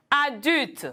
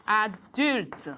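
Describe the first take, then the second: First: Said in the usual way. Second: Adulte split slowly as a - dulte; syllabes détachées. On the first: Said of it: "Un autre mot". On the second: Shown as a demonstration. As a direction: say Adulte syllable by syllable, a touch lower. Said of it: "j'écris adulte". (Adulte, détaché syllabe par syllabe)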